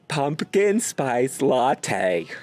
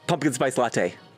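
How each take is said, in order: First: It is said slowly. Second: It is said fast.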